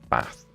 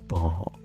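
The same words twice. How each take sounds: First: The word is said in a plain accent. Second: The word is said in a posh accent. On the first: "instead of" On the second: "if you want to sound posh like me, just say"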